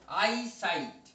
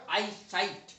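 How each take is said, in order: The two takes are said the same way.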